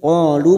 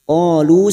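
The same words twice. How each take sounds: First: The final vowel is held for two beats. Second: The final vowel is held for five beats. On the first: The reciter stops after this word. "qalu masing-masing dua harakat kita panjangkan" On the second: The reciter continues into the next word. "sekarang kita wasal atau terus, maka lu kita panjangkan lima harokat"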